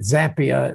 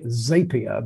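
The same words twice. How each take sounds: First: The name rhymes with happier. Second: The name does not rhyme with happier. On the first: The speaker calls it right. "same as happier" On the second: The speaker calls it wrong. "some people would say Zapier"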